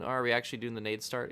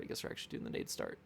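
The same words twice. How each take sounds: First: Said in the usual way. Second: Quick whisper under the breath; whispered aside. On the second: Real, not acted. Streamer answering his own question, fast whisper. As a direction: mutter it to yourself, fast and voiceless.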